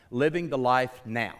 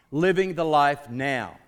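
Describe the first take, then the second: First: Said in the usual way. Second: "Living the life now" slow and loud, each word weighted; emphatic repetition. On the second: Real, not acted. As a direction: proclaim "Living the life now" slowly, with a raised voice. Preacher repeats key phrase emphatically.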